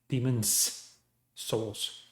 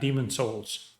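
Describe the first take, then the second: First: Demon is said with an s sound. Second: Demon is said without an s sound. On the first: The speaker calls it right. "that's Demon's Souls" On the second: The speaker calls it wrong. "not Demon Souls"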